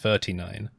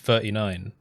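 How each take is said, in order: First: The T in thirty is clearly pronounced. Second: The T in thirty is softened or dropped. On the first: The speaker calls it right. "I was supposed to say thirty-nine" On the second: The speaker calls it wrong. "I slipped up"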